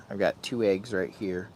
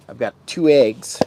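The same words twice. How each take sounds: First: Said in the usual way. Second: Two said louder with a falling hit; stress on two. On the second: Real, not acted. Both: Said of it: "repeats it right after".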